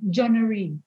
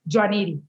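First: The name is said with English pronunciation. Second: The name is said with Spanish pronunciation. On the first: "how do you say your name in English?" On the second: "And how do you say your name in Spanish?"

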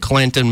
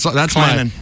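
First: The t sound in the middle is pronounced. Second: The t sound in the middle is dropped. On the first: The speaker calls it wrong. "You said it wrong" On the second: The speaker calls it right. "no T in Clanton"

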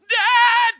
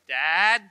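First: It is screamed at full volume. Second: It is called out quietly.

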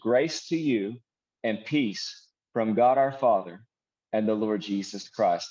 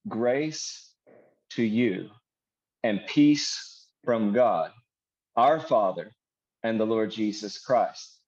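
First: It is read at a normal pace. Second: It is read more slowly.

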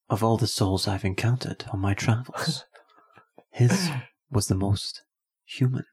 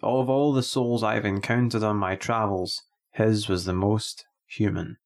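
First: It is read imitating Captain Kirk's voice. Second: It is read in his own plain voice.

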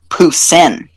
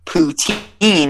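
First: It is said the Quebecois French way. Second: It is said the common English way. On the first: The speaker calls it right. "It's actually Poussin" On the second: The speaker calls it wrong. "saying poutine is actually wrong"

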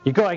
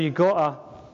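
First: It is said in an American accent. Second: It is said in the speaker's usual accent.

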